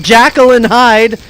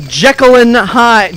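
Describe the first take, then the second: First: "Jekyll" said with a short a, like "jackal"; corrected pronunciation. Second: Said in the usual way. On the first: Real, not acted. Correcting the film title, "Jekyll" pronounced like "jackal". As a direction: say "Jekyll" as JACK-ul.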